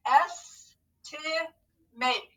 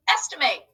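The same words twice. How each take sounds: First: Slow, syllable by syllable; scooping the word in parts; scooped syllables. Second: Said in the usual way. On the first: Shown as a demonstration. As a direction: stretch out each part slowly. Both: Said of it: "So scoop and read with me".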